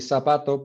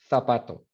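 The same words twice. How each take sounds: First: The first consonant sounds like an s. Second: The first consonant sounds like a th. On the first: This is how it is said in Latin America. "in Latin America would be" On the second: This is how it is said in Spain. "pero en España"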